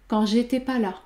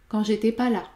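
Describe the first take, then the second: No difference in how they are said.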